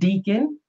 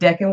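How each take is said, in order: First: The first vowel is a long E sound. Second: The first vowel is a short E sound. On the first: The speaker calls it wrong. "I used to pronounce it deacon" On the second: The speaker calls it right. "decan was short for decade"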